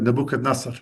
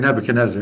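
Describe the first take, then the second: First: The name is pronounced with Arabic sounds. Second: The name is pronounced with English sounds. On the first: "in Arabic it says Nebuchadnezzar" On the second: "here I know you say Nebuchadnezzar"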